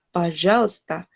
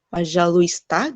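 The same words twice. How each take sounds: First: The L runs straight into the S. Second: Every letter is pronounced, including the vowel. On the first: The speaker calls it right. "tapi пожалуйста ... Jadi L-nya langsung ke S" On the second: The speaker calls it wrong. "Nggak пожалуйста, пожалуйста gitu"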